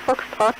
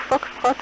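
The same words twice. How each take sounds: The two takes are said the same way.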